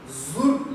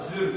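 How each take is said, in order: First: The vowel is a back rounded u. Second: The vowel is a front rounded ü. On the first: "her iki u ya da ü kullanılabilir" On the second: "her iki u ya da ü kullanılabilir"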